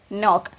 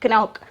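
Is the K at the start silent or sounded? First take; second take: silent; sounded. First: The K at the start is silent. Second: The K at the start is pronounced. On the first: The speaker calls it right. "K is silent here" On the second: The speaker calls it wrong. "We cannot say it is knock"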